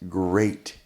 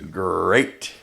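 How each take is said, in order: First: It is said in a normal voice. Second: It is said in a Tony the Tiger voice.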